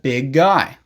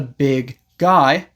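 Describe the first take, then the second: First: The two words are linked together. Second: The two words are said separately. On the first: "you can use that sound to connect the two words" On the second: "Instead of saying"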